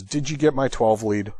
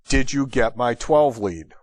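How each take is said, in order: First: Pointed radio question, first ask. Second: Slow, spaced-out repeat of the question; slower pointed repeat. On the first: Paramedic asking the doctor about the twelve lead, pointed. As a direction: ask it as a testing challenge. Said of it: "Just that tone of voice". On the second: Paramedic pressing the silent doctor for an answer, slow and pointed. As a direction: repeat it slowly after a pause, insisting. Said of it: "with that much of a pause between". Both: Retold or imitated.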